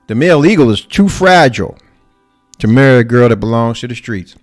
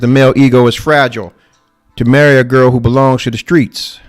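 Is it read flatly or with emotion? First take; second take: with emotion; flatly. First: It is read with feeling and expression. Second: It is read flatly, without emotion.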